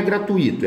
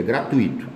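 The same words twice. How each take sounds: First: Gratuito said as gra-tu-Í-to, with a high rise; wrong stress. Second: Gratuito said as gra-TUI-to, with a lower fall; correct stress. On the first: Teacher showing the error, gratuito stressed on Í. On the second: Teacher giving the right form, gratuito stressed on TUI. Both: Shown as a demonstration. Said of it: "é gratuito".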